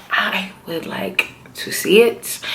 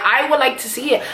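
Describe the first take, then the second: First: Drawn-out, deliberate repeat of I would like to see it; slow and emphatic. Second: Said in the usual way. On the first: Real, not acted. Viewer telling the show what she wants, slow and emphatic. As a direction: spell out the wish slowly, word by word.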